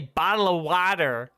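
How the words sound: The t sounds become d sounds, American accent. "Americans say bottle of water. They just replace T's with D's"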